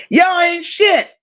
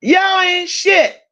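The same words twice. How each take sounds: First: Slow playful scold, shit drawn out; mock scold. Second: Slow, raised playful put-down; mock scold, higher. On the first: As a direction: tease the chat with a slow scolding. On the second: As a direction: scold them again, higher and slower.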